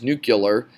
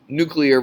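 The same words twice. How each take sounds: First: "nuclear" said NOO-kyuh-ler; "nuclear" with the wrong "kyuh-ler" ending; mispronunciation. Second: "nuclear" said NOO-klee-er; "nuclear" pronounced properly as NOO-klee-er; correct pronunciation. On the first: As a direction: garble "nuclear" into "nuke-yuh-ler". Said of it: "it's just pronounced incorrectly". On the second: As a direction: give "nuclear" its standard "klee-er" ending. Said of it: "say the word correctly". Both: Shown as a demonstration.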